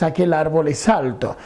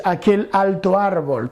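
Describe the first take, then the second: First: Aquel árbol es alto, stress on Aquel, falling at the end; teacher models Aquel árbol es alto with stress on Aquel; normal Spanish order. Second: Said in the usual way. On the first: Shown as a demonstration. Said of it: "tú dices". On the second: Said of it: "tú no dices".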